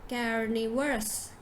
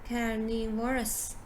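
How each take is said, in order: The two takes are said the same way.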